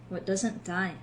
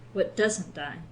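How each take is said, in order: First: The stress is on "die". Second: The stress is on "doesn't".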